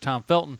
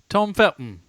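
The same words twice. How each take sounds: First: It is said in a plain American accent. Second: It is said in a posh English accent.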